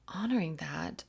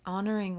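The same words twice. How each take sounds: First: Said in the usual way. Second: Honoring said louder with a falling end; stress on honoring. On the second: Shown as a demonstration. Telling viewers the message, honoring said louder and falling. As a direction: lean hard into honoring and let it drop.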